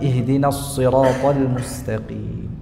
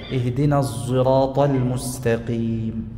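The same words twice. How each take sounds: First: The s in sirat is emphatic. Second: The s in sirat sounds z-like. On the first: "dibaca dengan shad murni" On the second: "dibaca dengan shad musyammah bizai"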